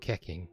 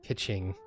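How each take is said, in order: First: The middle consonant is a hard K sound. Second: The middle consonant is a CH sound. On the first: The speaker calls it wrong. "I've always assumed it was the uh, like a K sound" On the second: The speaker calls it right. "every time I've heard it pronounced, it's always Kitching"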